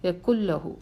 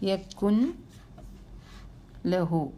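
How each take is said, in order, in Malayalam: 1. 'n' പൂർണ്ണമായി ഇരട്ട 'l'-ൽ ലയിക്കുന്നു. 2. 'n' ലാമിന് മുമ്പ് വ്യക്തമായി ഉച്ചരിക്കപ്പെടുന്നു. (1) "അങ്ങനെ പറയണം" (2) "നൂനെ ഒന്ന് വെളിവാക്കി നോക്കിയേ"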